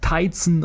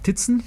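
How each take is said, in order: First: The name is read with English vowel sounds. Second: The name is read with German vowel sounds. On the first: The speaker calls it right. "auf Amerikanisch oder Englisch" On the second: The speaker calls it wrong. "zu Deutsch zumindest"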